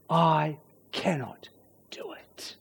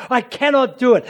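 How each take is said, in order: First: Slow and soft, sinking to a whisper; hushed admission. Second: Higher, firm stress on "cannot"; emphatic admission. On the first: Preacher admitting the awful truth, slow and hushed. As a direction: let it drop away into a hushed confession. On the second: Preacher restating what's going on, emphatic on "cannot". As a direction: hit "cannot" hard at full voice. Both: Acted.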